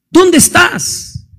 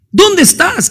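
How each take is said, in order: First: Slow, drawn-out pleading call; God calling, slow and searching. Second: Pitched higher, pressing call; God calling again, higher and urgent. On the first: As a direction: stretch the question out as if searching. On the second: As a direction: lift it up and press harder. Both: Acted. Preacher calls out God's question.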